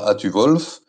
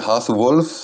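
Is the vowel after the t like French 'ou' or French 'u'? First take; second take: u; ou. First: The vowel is a front rounded French 'u'. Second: The vowel is a back rounded 'ou' sound. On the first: The speaker calls it wrong. "c'est pas Atu-Wolf ... les francophones ont tendance à le prononcer U" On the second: The speaker calls it right. "c'est Hath-Wolf, le U se prononce OU"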